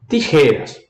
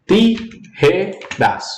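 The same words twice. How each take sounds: First: Said in the usual way. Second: "Tijeras" slowly split into separate syllables; broken into syllables. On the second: Shown as a demonstration. Teacher breaks the word for students, syllable by syllable. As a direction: say "Tijeras" syllable by syllable, pausing between each. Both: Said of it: "quebro a palavra".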